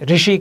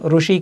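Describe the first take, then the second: First: The first syllable is said like 'ri'. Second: The first syllable is said like 'ru'. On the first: This is how it is said in central and northern India. "हमारे यहाँ मध्य क्षेत्र में और उत्तर क्षेत्र में ऋषि कहते हैं" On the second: This is how it is said in Maharashtra. "Maharashtra में रा में ऊ लगा करके जो बनता है उसके अनुसार ऋषि कहते हैं"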